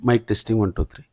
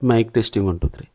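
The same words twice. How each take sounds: First: Background noise is more strongly suppressed. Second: Background noise is only lightly suppressed.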